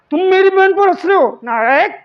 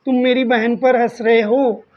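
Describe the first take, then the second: First: Raised, high-pitched indignant challenge; mock confrontation. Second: Said in the usual way. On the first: Teacher challenging someone laughing at his sister, mock confrontation. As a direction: play-act taking offence for your sister, louder and higher.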